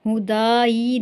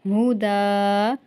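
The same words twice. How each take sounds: First: हुदाई with an extra ई sound at the end; wrong reading. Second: हुदा ending on a long आ, no ई; slow model हुदा; correct reading. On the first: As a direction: mistaken हुदाई, pronouncing the ye. (गलत हुदाई, आख़िर में ई पढ़ना) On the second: (हुदा को बिना ई के खींचकर पढ़ना) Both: Shown as a demonstration. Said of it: "हुदाई नहीं पढ़ेंगे".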